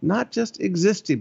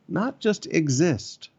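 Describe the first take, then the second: First: "Not" hit higher and fall through "existing"; stress on NOT. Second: Each word slowly and deliberately: "not just exist"; slow emphasis. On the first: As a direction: punch "Not" to correct yourself. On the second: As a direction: stretch out "exist" slowly, as a warning. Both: Shown as a demonstration. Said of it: "Let me say that again".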